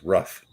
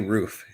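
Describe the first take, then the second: First: The vowel is short, like a dog's 'ruff'. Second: The vowel is a long 'oo' sound. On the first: "You're pronouncing it like you're a dog" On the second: "say roof"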